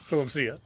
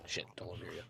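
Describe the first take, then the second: First: Louder playful warning; half-laughing, play up the panic; mock urgency. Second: Low hushed whisper. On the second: Real, not acted. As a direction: hiss it under your breath. Ducking to hide from stag.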